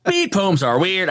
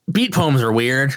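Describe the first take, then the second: First: Slow, lilting beat poet recital; beat poem delivery. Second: Said in the usual way. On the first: Shown as a demonstration. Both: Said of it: "I said it in beat poem".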